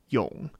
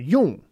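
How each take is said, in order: First: The syllable is low and short. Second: The syllable has a falling pitch. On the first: "third tone is quite low and it's short" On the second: "That's a fourth tone"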